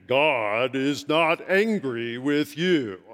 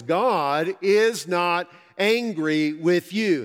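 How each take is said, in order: First: Slow, lowered, resonant take on God is not angry with you; a hint of a bass-voiced professor; imitating a deep voice. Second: Slow, louder, every word weighted; slow emphatic own voice. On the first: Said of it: "He had a very deep voice". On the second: Shown as a demonstration. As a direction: stress on is, drawn out. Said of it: "more profound coming from a guy".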